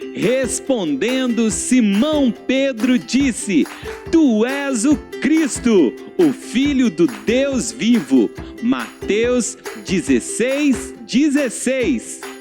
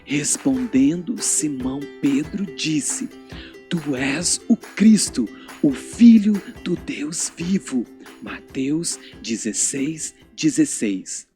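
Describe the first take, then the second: First: It is said aloud in a happy voice. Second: It is said very softly, like a secret.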